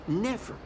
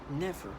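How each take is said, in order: First: Never. lifted to a rising, defiant end; a defiant repeated refusal; emphatic never. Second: A hushed, resolute refusal; quiet flat never. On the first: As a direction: push back hard on Never. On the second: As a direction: say it quietly to yourself. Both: Real, not acted.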